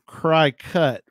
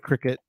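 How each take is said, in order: First: The first syllable sounds like 'cry'. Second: The first syllable sounds like 'crick'. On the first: "It's cry cut, right?" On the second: "We call it cricket"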